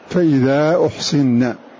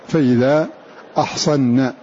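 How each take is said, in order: First: The word starts with u and has i after s. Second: The word starts with a and has a after s. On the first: The verb is passive: they were made chaste. "بضم الهمزة وكسر الصاد" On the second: The verb is active: they became chaste. "بفتح الهمزة والصاد"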